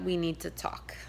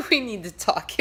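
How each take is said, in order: First: Said in the usual way. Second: Mock-stern New York accent, louder; a sassy New Yorker laying down the law; a touch of New York attitude. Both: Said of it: "a little bit of my New York accent came out".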